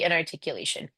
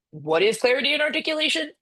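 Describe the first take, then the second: First: Said in the usual way. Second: "clarity and articulation" pitched high in sarcastic disbelief; mocking question. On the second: Real, not acted. Lecturer mocking the company's vague jargon, sarcastic and high. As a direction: scoff at the buzzwords "clarity and articulation" with a high, incredulous lilt.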